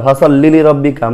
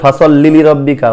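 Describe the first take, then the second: No difference in how they are said.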